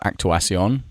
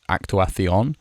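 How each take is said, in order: First: The c is said with an s sound. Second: The c is said with a th sound. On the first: The speaker calls it right. "I prefer actuación" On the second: The speaker calls it wrong. "the C is pronounced th, like actuación"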